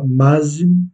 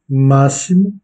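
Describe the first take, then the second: First: The x is not pronounced as an s sound. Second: The x is pronounced as an s sound. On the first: The speaker calls it wrong. "et non pas" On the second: The speaker calls it right. "ici le x se prononce se"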